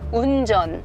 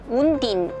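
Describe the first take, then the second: First: The second syllable begins with a 'j' sound. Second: The second syllable begins with a 'd' sound. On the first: The standard adult version of the word. The speaker calls it right. "정확하게 발음해보자" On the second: A young child's version of the word. The speaker calls it wrong. "지읒 발음도 어려웠나 봐요"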